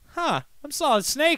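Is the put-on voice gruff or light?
light. It is said in a lighter, un-gruff put-on voice. This is how an impostor sounds. The speaker calls it right. "he doesn't sound like that because he's not Solid Snake"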